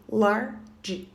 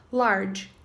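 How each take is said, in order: First: "Large" broken in two, "lar... ge"; split into syllables. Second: Said in the usual way. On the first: Shown as a demonstration. Teacher showing learners a two-syllable adjective, "Large" split into "lar-ge". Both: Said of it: "Outro adjetivo de duas sílabas".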